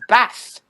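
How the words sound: It is said in a northern English accent. This is how the partner from the north says it. "my other half is from the north ... he says bath"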